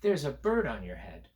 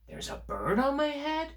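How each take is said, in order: First: The voice falls flatly at the end. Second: The voice rises at the end. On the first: It is a plain statement. "First, I'm going to say it this way" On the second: It is a question. "I'm going to make it a question"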